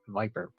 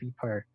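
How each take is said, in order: First: The name is pronounced the English way. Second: The name is pronounced the French way. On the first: The speaker calls it right. "but it's in English" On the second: The speaker calls it wrong. "Pronouncing this the French way every time"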